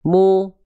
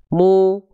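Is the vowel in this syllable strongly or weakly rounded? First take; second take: strongly; strongly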